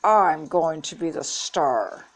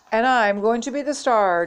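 First: Slow, tight insistence; through clenched teeth. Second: Higher, showy boast; boastful announcement. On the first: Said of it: "said through her clenched teeth". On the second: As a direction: proclaim yourself the star with a little flourish. Jeff boasts about starring. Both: A narrator's reading.

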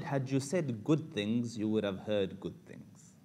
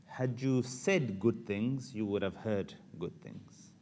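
First: Slow, weighed delivery of the mom's advice; mother gently teaching her son, slow and deliberate; slow wise advice. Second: Even slower, every word weighed; preacher repeats the mom's lesson for the crowd, slow and deliberate. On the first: Slow measured moral. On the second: Slow emphatic repeat. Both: Shown as a demonstration. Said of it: "Can I say that again?".

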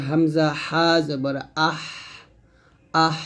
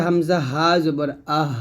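First: Slow আহ with a fine, narrowed stream of air; drawn-out হামজা হা জবর আহ, mid-throat h; narrow squeezed breath. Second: আহ ending in thin air from the start of the throat; thin light breath. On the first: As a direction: squeeze the h of আহ into a thin hiss of air. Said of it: "চিকন বাতাস বের করতে হবে". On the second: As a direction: let a light breath out at the end of আহ. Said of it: "গলা শুরু থেকে পাতলা বাতাস". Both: Shown as a demonstration.

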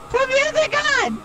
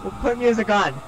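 First: High loud demand; shouting. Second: Said in the usual way. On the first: Real, not acted. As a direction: shout it over the noise. Shouting request mid chase.

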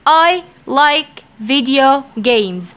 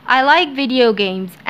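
First: I like video games said slowly; slow dictation. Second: Said in the usual way. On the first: Shown as a demonstration. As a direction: read it slowly for learners. (نطق بطيء)

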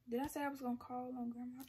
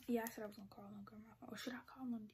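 First: Said in the usual way. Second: Hushed fast whisper. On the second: Real, not acted. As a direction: whisper it so nobody hears. Whispering so grandma won't hear.

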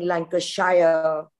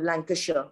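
First: Lancashire said slowly as Lan-ca-SHIRE, last part like shire; wrong pronunciation. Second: Lancashire said short as LANK-uh-shuh, clipped ending; right pronunciation. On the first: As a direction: drag out Lancashire with a full shire ending. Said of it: "irritated with somebody saying". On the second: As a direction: Lancashire with the shire reduced to shuh. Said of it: "instead of". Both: Shown as a demonstration.

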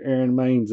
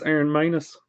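First: "Maines" said as one syllable, maynz; old mispronunciation. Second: "Manus" said MAY-nuss, two syllables; soft "Aaron Manus", with "Manus" as may-nuss; corrected name. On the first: Owning his mistake to Aaron, "Maines" as maynz. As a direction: say "Aaron Maines" with "Maines" rhyming with canes. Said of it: "I'll never call you Aaron Maines again". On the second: Correcting himself for Aaron, "Manus" as may-nuss. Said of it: "It's Aaron Manus". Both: Shown as a demonstration.

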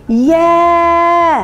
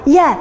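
First: "يا" held long on a level note; long vowel. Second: "يا" as one quick, short syllable; short vowel. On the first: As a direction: stretch the aa of "يا" steadily, almost chanted. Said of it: "صوت طويل هنا". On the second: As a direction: say "يا" briefly, without holding the vowel. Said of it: "لأنه صوت قصير". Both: Shown as a demonstration.

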